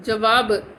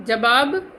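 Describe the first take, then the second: First: जवाब said javaab with a clear v, falling; correct pronunciation. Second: जवाब said jabaab with a b sound, rising; wrong pronunciation. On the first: Teacher gives pupils the correct v form. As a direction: give जवाब a clean v. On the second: Teacher shows pupils the wrong b form. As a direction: turn the v of जवाब into b. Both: Shown as a demonstration. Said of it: "wrong then right pairs".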